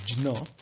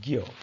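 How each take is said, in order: First: The letter is pronounced with a jn sound. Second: The letter is pronounced with a gy sound. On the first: "in Sanskrit, it is pronounced as" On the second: "in Hindi, it is pronounced as"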